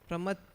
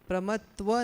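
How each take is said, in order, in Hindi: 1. यह शब्द दोहरी 'tta' ध्वनि से खत्म होता है। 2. यह शब्द 'tva' ध्वनि से खत्म होता है। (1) "प्रमत्त है ना" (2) "प्रमत्व नहीं है"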